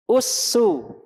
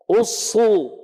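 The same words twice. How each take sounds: First: Usu light and thin. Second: Usu thick with raised tongue root; heavy Usu. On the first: Teacher repeats sin dhammah for the class. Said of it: "ulangi sin dhammah". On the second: Teacher repeats sod dhammah for the class. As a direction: make Usu full and heavy. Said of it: "Sod dhammah". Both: Shown as a demonstration.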